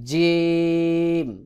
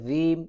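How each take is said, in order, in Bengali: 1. প্রথম ব্যঞ্জনটি দৃঢ় j ধ্বনি। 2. প্রথম ব্যঞ্জনটি দৃঢ় j ধ্বনি নয়। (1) "জিব্বার মধ্যখান থেকে চাপ দিয়ে উচ্চারণ করতে হবে, যেমন" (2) "অনেকে রিম এইভাবে উচ্চারণ করে, এটা ভুল উচ্চারণ"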